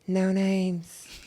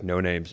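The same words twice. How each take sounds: First: It is said in a voice an octave higher. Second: It is said in a low, macho voice.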